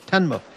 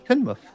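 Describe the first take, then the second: First: The first syllable sounds like 'ten'. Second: The first syllable sounds like 'tin'. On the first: The speaker calls it wrong. "what did I say?" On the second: The speaker calls it right. "So Tinmouth"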